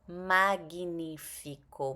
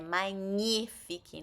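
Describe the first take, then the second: First: The 'gn' is a separate 'g' and 'n'. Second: The 'gn' is one 'ny' sound. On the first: The speaker calls it wrong. "não magnífico" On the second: The speaker calls it right. "Quando tiver G N I, tem som de N H. Então é magnifique"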